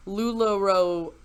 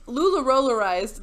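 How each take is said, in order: First: "lularoarized" fumbled, wrong syllables; stumbling over a word. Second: "lularolarized" said through cleanly; word finally landed. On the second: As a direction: get "lularolarized" out in one go. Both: Real, not acted. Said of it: "I'm gonna struggle with this word".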